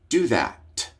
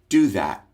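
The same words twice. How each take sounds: First: The final T is released with a puff of air. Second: The final T is held without releasing air. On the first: The speaker calls it wrong. "letting the air out or exploding or aspirating the T" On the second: The speaker calls it right. "a stopped or held or unaspirated T"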